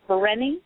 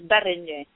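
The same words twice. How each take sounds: First: It is said with a northern pronunciation. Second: It is said with a Hungarian pronunciation. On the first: "If you are from the north, people tend to say" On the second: "If you're Hungarian, the enunciation is"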